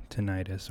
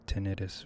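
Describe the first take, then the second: First: "tinnitus" as tuh-NIGH-tus; long-i pronunciation. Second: "tinnitus" as TIN-i-tus; short-i pronunciation. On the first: Offering one of two ways to say it, "tinnitus" as tuh-NIGH-tus. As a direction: say "tinnitus" with a stressed long i, like night. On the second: Offering the other way to say it, "tinnitus" as TIN-i-tus. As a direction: say "tinnitus" with first-syllable stress and short i's. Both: Shown as a demonstration. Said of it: "however you say it".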